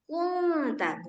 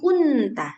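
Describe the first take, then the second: First: The n is hidden, a nasal hum without tongue contact. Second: The n is fully pronounced with tongue contact. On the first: The speaker calls it right. "jadi gimana bacanya? Kunta" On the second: The speaker calls it wrong. "bukan kunta"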